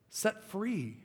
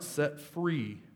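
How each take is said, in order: First: "Set free" lifted much higher, stress on "free" then falling; emphatic repeat. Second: Said in the usual way. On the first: Shown as a demonstration. Pastor repeats the answer to press it home, high emphatic stress. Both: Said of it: "has been what?".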